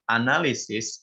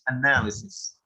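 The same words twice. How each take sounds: First: The word is said the Indonesian way. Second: The word is said the English way. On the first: The speaker calls it wrong. "analysis is bahasa Indonesia. It's already uh, adapted to bahasa Indonesia" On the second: The speaker calls it right. "the correct pronunciation is analysis"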